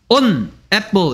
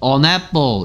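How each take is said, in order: First: The two words are said separately. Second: The two words are run together. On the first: The speaker calls it wrong. "발음을 on apple 이렇게 하는 사람 없어" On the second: The speaker calls it right. "on apple 이렇게 들립니다"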